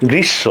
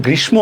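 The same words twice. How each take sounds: First: "গ্রীষ্ম" as grish-sho, sh doubled, no m; correct silent m. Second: "গ্রীষ্ম" as grish-mo, ম voiced; wrong sounded m. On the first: Teacher corrects for learners, "গ্রীষ্ম" as grish-sho. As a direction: say "গ্রীষ্ম" grish-sho with nasal-marked ending, ম not sounded. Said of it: "এটা হচ্ছে". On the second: Teacher warns learners it isn't so, "গ্রীষ্ম" as grish-mo. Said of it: "এটা কিন্তু গ্রীষ্ম না". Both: Shown as a demonstration.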